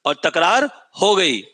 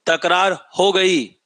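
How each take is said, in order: First: और तकरार हो गई slowly, तकरार stressed; slow repeat for the class, तकरार stressed; slow emphatic dictation. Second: तकरार हो गई spelled out slowly, हो stressed; slow teacher's drill of तकरार हो गई; slow emphatic dictation. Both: Shown as a demonstration. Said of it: "भूलना मत".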